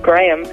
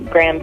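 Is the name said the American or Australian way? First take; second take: Australian; American. First: The name is said in an Australian way. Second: The name is said in a local American way. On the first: This is how people from Australia say it. "to us down under, it'd be Graham" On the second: This is how people here say it. "I think people would say Graham Cracker"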